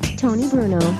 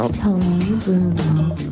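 First: It is said fast. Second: It is said slowly.

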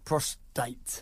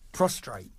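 First: No r sound follows the t. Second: An extra r sound follows the t. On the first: The speaker calls it right. "There you go" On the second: The speaker calls it wrong. "I said it wrong for the whole episode"

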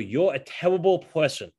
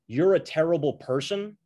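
First: It is said in an Elmer Fudd voice. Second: It is said in the speaker's normal voice.

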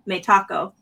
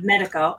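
First: The middle consonant is a crisp t sound. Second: The middle consonant is a soft d-like sound. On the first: This is how the company itself says it. The speaker calls it right. "they pronounce it Metaco" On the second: This is the easier version for North Americans. The speaker calls it wrong. "instead of Medico"

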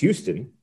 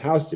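First: It is said the way the Texas city is. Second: It is said the way the New York street is. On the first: It names the city in Texas. "In Texas, it's pronounced Houston" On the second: It names the street in New York. "In New York, the street is pronounced Houston"

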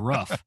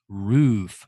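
First: The vowel is short, like in 'rough'. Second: The vowel is long, like in 'rude'. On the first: The speaker calls it wrong. "people who say roof as rough" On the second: The speaker calls it right. "it's roof because there's two O's"

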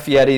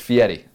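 First: The name has the plain American pronunciation. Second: The name has a fancier, foreign-sounding pronunciation. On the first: The speaker calls it wrong. "Fieri is like the American pronunciation" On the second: The speaker calls it right. "You want to say the fancy one"

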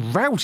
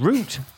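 First: The word is said the American way. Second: The word is said a non-American way. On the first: The speaker calls it wrong. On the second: The speaker calls it right.

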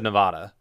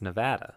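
First: The A is said the New Jersey way. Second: The A is said the local Nevada way. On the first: The speaker calls it wrong. "I've always said Nevada my whole life" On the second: The speaker calls it right. "they told us how to say it, and it's Nevada"

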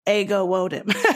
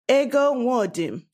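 First: The name is said with an American accent. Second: The name is said with a Nigerian accent. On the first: "I don't expect a person who is born in America to be able to say that. So the way they would is" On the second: "My name with a Nigerian accent would sound like"

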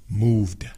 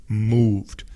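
No difference in how they are said.

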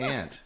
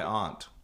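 First: The word is said with an American accent. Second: The word is said with a British accent. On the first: "I say aunt, but that's American" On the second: "British would say my aunt"

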